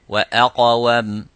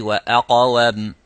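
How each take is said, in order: No difference in how they are said.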